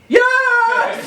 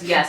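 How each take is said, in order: First: It is said very loudly. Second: It is said very quietly.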